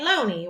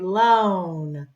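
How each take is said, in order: First: The word is said with two syllables. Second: The word is said with one syllable. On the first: The speaker calls it wrong. "we're not going to say loney" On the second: The speaker calls it right. "we're going to say loan"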